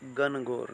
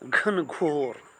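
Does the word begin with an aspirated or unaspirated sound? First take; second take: unaspirated; aspirated. First: The first sound is a plain, unaspirated g. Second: The first sound is a breathy, aspirated gh. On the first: The speaker calls it wrong. "नहीं" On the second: The speaker calls it right. "घ से आरंभ होने वाले शब्द"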